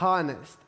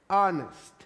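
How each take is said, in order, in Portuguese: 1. A palavra começa com um som de h audível. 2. A palavra começa direto com um som de vogal. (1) "não é honest" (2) "é honest; São Hs que não têm som"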